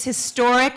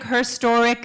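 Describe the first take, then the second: First: Said in the usual way. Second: "her historic" with "her" pushed forward as a new word; stress on her. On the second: Shown as a demonstration. Speaker punning for the crowd, stress on "her" in "her historic". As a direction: lean on "her" to turn history into herstory.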